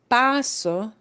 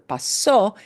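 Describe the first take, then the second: First: The stress is on the first syllable. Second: The stress is on the last syllable. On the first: I am passing through or coming in. "you punch the pa harder" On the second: It happened. "If you punch the o at the end harder"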